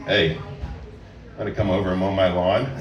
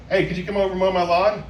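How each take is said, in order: First: Sexy tone. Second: Said in the usual way. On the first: Shown as a demonstration. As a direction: drop the voice low and make it suggestive. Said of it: "make it sound sexy by the tone of your voice". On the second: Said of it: "normal things you can say to somebody".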